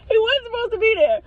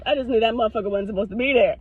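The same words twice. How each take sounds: First: High-pitched insistent repeat; high, animated indignation; emphatic high pitch. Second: Said in the usual way. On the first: Real, not acted. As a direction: push the whole line up high in protest.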